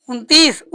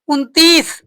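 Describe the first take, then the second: Both takes have the same delivery.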